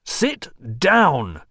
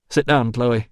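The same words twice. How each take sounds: First: Raised, forceful command; roared order. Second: A little louder, commanding; firm order. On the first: Visitor cutting off the shrieking woman, roaring. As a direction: roar it to overpower her. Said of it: "roared Rousseau". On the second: Visitor ordering distraught woman to sit, firm. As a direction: give a controlled order. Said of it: "he ordered". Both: A narrator's reading.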